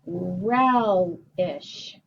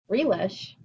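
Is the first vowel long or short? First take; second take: short; long. First: The first vowel is short, like 'eh'. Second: The first vowel is long, like 'ee'. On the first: The speaker calls it right. "It's two closed syllables" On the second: The speaker calls it wrong. "making it an open syllable"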